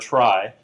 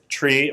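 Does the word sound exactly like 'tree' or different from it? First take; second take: different; like tree. First: The word is pronounced differently from 'tree'. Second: The word is pronounced exactly like 'tree'. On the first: The pronunciation keeps it apart from the ordinary word. "people often like to say trie so that you can distinguish it" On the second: The pronunciation follows the word it comes from. "you would expect to pronounce it like tree"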